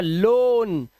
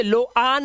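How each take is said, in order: First: लोन as one syllable, long "o"; correct pronunciation. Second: लो आन split in two, "lo-aan"; wrong pronunciation. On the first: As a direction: model लोन like "lone", drawn out. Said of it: "इसे लो आन नहीं पढ़ते". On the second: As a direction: show the mistake, sounding both vowels in लो आन. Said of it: "नहीं पढ़ते". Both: Shown as a demonstration.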